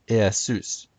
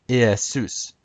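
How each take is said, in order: The two takes are said the same way.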